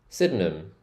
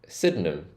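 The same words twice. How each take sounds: The two takes are said the same way.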